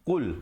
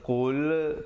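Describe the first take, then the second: First: The word is said quickly and kept short. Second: The word is said slowly and drawn out. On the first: The speaker calls it right. "Qul, begitu saja" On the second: The speaker calls it wrong. "jangan lambat, jangan qul, tak betul"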